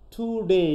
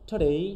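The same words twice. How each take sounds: First: The first vowel is pronounced in full. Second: The first vowel is dropped after the t. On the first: "আমরা যদি পুরো উচ্চারণ করতে" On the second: "টুর জন্য আমরা উ বলছি না"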